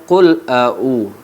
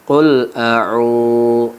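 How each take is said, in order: First: The final u vowel is short. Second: The final u vowel is held long. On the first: The speaker calls it wrong. "Kebiasaan orang membaca" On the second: The speaker calls it right. "u-nya panjang"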